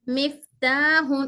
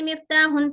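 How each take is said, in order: First: The f is careful with teeth on lower lip. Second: The f is rushed without clear lip contact. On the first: The speaker calls it right. "हमारे दोनों होंठ नीचे टच होने के बाद" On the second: The speaker calls it wrong. "बस खाली मिफ्ताहुन पढ़ लेते चले"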